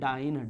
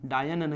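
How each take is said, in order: First: The word ends sounding like 'ine'. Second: The word ends sounding like 'yan'. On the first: It names the unit of force. The speaker calls it right. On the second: It names a witch, not the unit. The speaker calls it wrong. "डायन नहीं"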